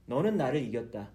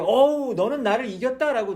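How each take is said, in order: First: Said in the usual way. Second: Louder, higher exclamation of defeat; loud cry of "어우" then "이겼다" stressed; God conceding aloud. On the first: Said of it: "나중에 이야기를 해줘요". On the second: Retold or imitated. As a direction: call it out like a beaten wrestler giving in. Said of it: "하나님 뭐라 그래요?".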